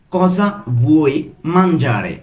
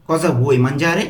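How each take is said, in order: First: Slow, separated "Cosa ... vuoi ... mangiare?"; broken into pieces. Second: Said in the usual way. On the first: Shown as a demonstration. Teacher asking what you want to eat, word by word. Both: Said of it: "আমি কিন্তু ভেঙে ভেঙে বলছি".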